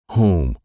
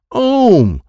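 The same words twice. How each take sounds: First: Said in the usual way. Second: "Ohm" for home, no H, high and loud; dropped H. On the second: Acted. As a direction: blurt "Ohm", home without its first sound. Troy attempts home, drops sound.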